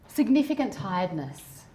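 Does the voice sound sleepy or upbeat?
sleepy. It is said in a soft, sleepy tone.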